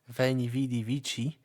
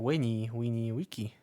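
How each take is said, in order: First: It uses the traditional later Latin pronunciation. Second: It uses the reconstructed ancient Roman pronunciation. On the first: "in the traditional Latin" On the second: "in the Roman pronunciation"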